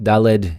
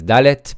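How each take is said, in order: First: The word ends with a d sound. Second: The word ends with a t sound. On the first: "Daled is also fine" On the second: "The correct pronunciation is Dalet"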